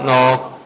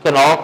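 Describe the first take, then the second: First: The word begins with an n sound, k silent. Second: The word begins with a pronounced k sound. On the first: The speaker calls it right. "के silent है" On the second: The speaker calls it wrong. "कनॉक नहीं पढ़ेंगे"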